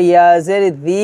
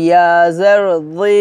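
First: জি thin, like dhal; quick ইয়া জের জি with a light "dhee"; wrong light sound. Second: Full-mouthed emphatic "dhee" for জি; correct heavy sound. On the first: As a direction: keep জি unrounded and light. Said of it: "বললে হবে না". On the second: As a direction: spell out ইয়া জের জি with a heavy zha. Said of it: "বলতে হবে". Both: Shown as a demonstration.

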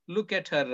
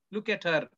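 The two takes are said the same way.

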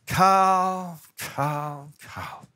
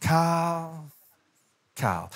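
First: Escalating warning, fading; name called three times. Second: Warning call dropping down; name called twice. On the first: Parent's last warning calling Carl three times, fading. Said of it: "There's only one thing worse". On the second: Parent's warning calling Carl twice, falling. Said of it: "every time you hear your name twice". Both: Retold or imitated.

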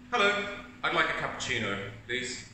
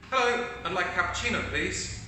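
First: A grumpy, demanding order; negative customer. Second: Higher and faster, upbeat order; positive customer. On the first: Negative customer ordering a cappuccino at the counter, grumpy. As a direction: order as if nothing here will please you. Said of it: "this is the negative person". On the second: Positive customer ordering a cappuccino, higher and upbeat. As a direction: greet the barista like a happy regular. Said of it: "show you how ... in a positive way". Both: Acted.

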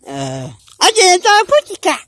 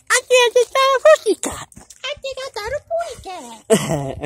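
First: Said in the usual way. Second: High cartoon bird voice. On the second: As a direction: sing it out like a tiny cartoon bird. Cartoon bird line repeated higher.

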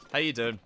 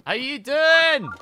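First: Said in the usual way. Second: High, loud, slow sing-song greeting; drawn-out greeting. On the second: Real, not acted. Streamer greeting a viewer, loud sing-song version. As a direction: draw it out like a game-show host.

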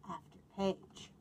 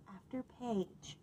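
The two takes are said the same way.

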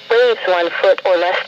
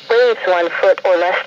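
Both takes have the same delivery.

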